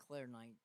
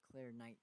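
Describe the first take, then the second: No difference in how they are said.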